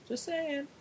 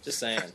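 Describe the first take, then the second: First: Much higher, teasing "just saying"; squeaky mock "just saying". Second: Said in the usual way. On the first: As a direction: echo it back in a silly high voice. Mock repeat of the tag line.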